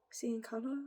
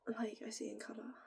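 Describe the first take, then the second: First: Said in the usual way. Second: Soft unvoiced whisper on "I see in colour". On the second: Real, not acted. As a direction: breathe "I see in colour" like a secret. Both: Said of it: "I always say it like that".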